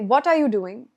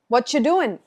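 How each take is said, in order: First: Every word is said, including 'are'. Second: The word 'are' is dropped entirely.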